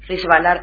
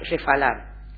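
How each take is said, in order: First: The middle consonant is a voiced b. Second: The middle consonant is a voiceless f.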